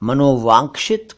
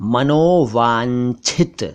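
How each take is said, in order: First: The middle cluster is pronounced with a 'ksh' sound. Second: The middle cluster is pronounced with a 'chh' sound. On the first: The speaker calls it wrong. "मनोवांक्षित कुछ नहीं होता" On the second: The speaker calls it right. "सही शब्द तो है मनोवांछित"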